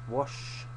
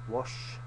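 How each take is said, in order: No difference in how they are said.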